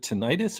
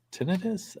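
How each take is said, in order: First: Tinnitus with a long EYE in the middle; first pronunciation. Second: Tinnitus stressed up front, short middle vowel; alternative pronunciation. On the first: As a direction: say tinnitus as tin-EYE-tus. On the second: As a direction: say tinnitus as TIN-ih-tus, higher and questioning. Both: Shown as a demonstration. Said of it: "I don't even know how to pronounce it".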